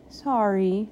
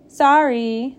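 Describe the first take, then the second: First: Gentle, unraised, contrite sorry; meek, heartfelt apology; sincere apology. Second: Loud, raised, not-sorry sorry; grudging, pointed apology; insincere apology. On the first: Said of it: "and she meant it". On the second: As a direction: toss out an apology you don't mean. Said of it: "Not sorry is what she meant". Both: A narrator's reading.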